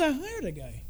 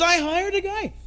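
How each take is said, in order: First: Offhand, quiet. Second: Higher, spelled-out repeat of "I hired a guy"; repeated with emphasis. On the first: Patient tells the doctor his secret, casually and softly. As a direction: toss it off quietly like it's nothing. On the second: Patient repeats for the baffled doctor, higher and emphatic. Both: Retold or imitated. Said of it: "He goes".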